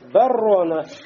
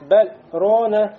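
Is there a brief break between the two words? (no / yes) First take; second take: no; yes. First: The words run together with the l merged into r. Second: A brief break without breath separates the two words. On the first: "Если бы мы не сделали остановку, мы как прочитали? Баррона. Лям вошел бы в ро" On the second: "когда мы делаем ассак, говорим баррона, но не дышим в этот момент"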